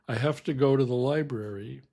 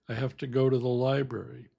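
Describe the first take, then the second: The two takes are said the same way.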